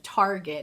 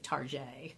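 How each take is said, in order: First: It is said in a plain American way. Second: It is said in a put-on fancy, French-sounding way.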